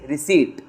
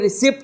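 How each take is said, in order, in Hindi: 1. p की आवाज़ नहीं बोली जाती। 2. p की आवाज़ बोली जाती है। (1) "ये पी साइलेंट है तुम्हारा, इट्स रिसीट" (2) "ये रिसिप्ट नहीं है"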